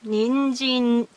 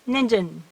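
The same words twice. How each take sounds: First: The first n is held for a full beat. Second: The first n is clipped short, nearly dropped. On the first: The speaker calls it right. "you should keep one hiragana, one length" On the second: The speaker calls it wrong.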